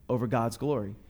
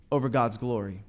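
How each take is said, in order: Both takes have the same delivery.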